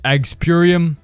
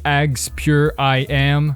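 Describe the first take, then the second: First: The name ends in one blended '-ium' syllable. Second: The name ends in separate words 'I am'. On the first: The speaker calls it wrong. "Some people pronounce it Agspurium. Those people probably can't read" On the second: The speaker calls it right. "I've always pronounced this like AgsPureIM. I do not like green eggs and ham, Sam I am"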